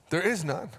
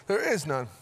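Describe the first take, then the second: No difference in how they are said.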